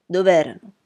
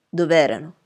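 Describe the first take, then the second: First: Dov'erano pressed harder and louder, falling; insistent repeat. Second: Said in the usual way. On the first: Acted. Lawyer repeating the question to a silent witness, pressing harder. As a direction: hit Dov'erano again, pressing. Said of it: "Nessuna risposta".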